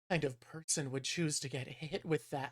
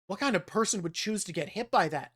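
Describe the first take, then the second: First: It sounds admiring and infatuated. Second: It sounds disapproving and incredulous. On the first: The character is attracted to the man. "instead, I read it in my head as" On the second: The character finds the act foolish. "the tone I think that you would normally read that in"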